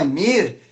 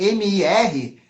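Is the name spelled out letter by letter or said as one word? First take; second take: one word; letters. First: It is said as a single word. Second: Each letter is named separately. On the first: The name is read as a word. The speaker calls it right. "Não" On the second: The name is read as an acronym. The speaker calls it wrong. "se tem que pronunciar como sigla"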